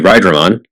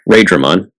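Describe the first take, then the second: First: It uses the speaker's preferred, original-style pronunciation. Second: It uses the official English dub pronunciation. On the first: This is how it ought to be pronounced. The speaker calls it right. "It should be Raidramon" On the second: This is how the show pronounces it. The speaker calls it wrong. "that is the official English pronunciation"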